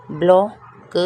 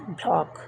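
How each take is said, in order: First: block said out loud with a rise; clear loud model. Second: block repeated much softer, falling; soft echo. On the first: Teacher models block loudly for students, rising. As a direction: call block out clearly for the class. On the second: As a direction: murmur block back quietly. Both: Shown as a demonstration. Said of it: "teacher models word twice".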